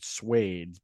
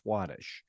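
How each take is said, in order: First: The name ends with a plain s sound. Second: The name ends with an sh sound. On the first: The speaker calls it wrong. "I've always pronounced it Swades, but I don't think it's Swades" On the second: The speaker calls it right. "I think it's Swadesh"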